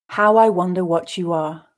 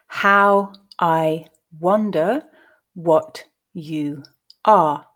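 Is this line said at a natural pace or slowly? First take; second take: natural pace; slowly. First: The line is said at a natural pace. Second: The line is said slowly. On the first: "then at a more natural pace" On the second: "reading each verse slowly"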